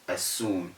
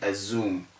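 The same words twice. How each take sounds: First: The middle consonant is a sharp s sound. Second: The middle consonant is a buzzing z sound. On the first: The speaker calls it right. "start saying" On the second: The speaker calls it wrong. "stop saying"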